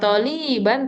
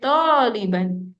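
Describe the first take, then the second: First: The first vowel is short. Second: The first vowel is long. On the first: The speaker calls it wrong. "Bukan Toliban" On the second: The speaker calls it right. "toknya yang panjang sayang"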